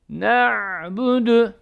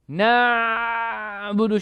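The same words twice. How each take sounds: First: The ayn sound is held only briefly. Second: The ayn sound is held long. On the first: The speaker calls it right. "Sadece yarım" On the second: The speaker calls it wrong. "böyle uzun bir şekilde gitmez"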